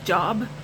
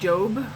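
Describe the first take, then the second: First: The name sounds like the common word job. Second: The name does not sound like job. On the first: "it's spelled J O B, so Job" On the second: "I've always pronounced his name Job"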